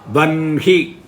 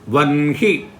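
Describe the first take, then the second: First: The n sound comes before the h sound. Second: The same.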